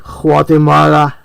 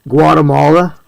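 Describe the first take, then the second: First: The name is said with Spanish pronunciation. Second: The name is said with English pronunciation. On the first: The speaker is showing off another language. The speaker calls it wrong. "they want to show off their mastery of another language" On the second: The speaker is simply speaking English. The speaker calls it right. "instead of saying Guatemala"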